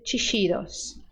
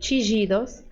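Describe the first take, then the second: First: The ll is said like an English sh. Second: The ll is said like a soft zh sound. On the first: "som de S H" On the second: "som de J"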